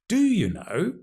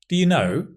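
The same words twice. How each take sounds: First: The stress falls on the word do. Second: The stress falls on the word know. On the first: The asker doubts that the listener knows. "Emphasizing the do, strong form" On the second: It is a plain question. "Just means, do you know"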